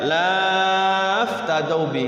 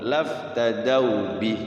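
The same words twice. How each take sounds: First: The vowel of the first syllable is drawn out long. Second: The vowel of the first syllable is kept short. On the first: The speaker calls it wrong. "nggak boleh dibaca laftadau bi, salah ya" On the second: The speaker calls it right. "Tidak dibaca pan panjang laknya karena depannya sukun"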